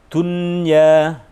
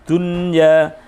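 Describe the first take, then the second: No difference in how they are said.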